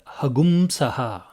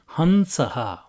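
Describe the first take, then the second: First: The middle has a 'gum' sound instead of 'n'. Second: The middle has an 'n' sound instead of 'gum'. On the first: The speaker calls it wrong. "It is not Hagumsaha" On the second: The speaker calls it right. "It should be Hansaha"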